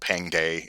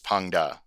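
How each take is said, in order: First: The last syllable ends in an 'ay' vowel. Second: The last syllable ends in an 'ah' vowel. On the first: The speaker calls it wrong. "I think they call him Pang Day in this version of the game" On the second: The speaker calls it right. "I believe Pangda is maybe closer as far as the pronunciation"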